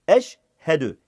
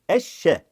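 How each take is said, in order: First: The sh and h are said separately. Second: The sh sound is doubled with no h. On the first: The speaker calls it right. "yani arayı ayırıyorum ki iyice anlaşılsın" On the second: The speaker calls it wrong. "yani sanki iki tane şey var gibi, bu yanlıştır"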